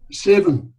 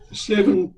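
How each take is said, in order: First: Seven said louder, stressed and falling; emphatic repeat. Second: Said in the usual way. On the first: Real, not acted. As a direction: lean hard on the repeated seven. Repeats son's age for emphasis.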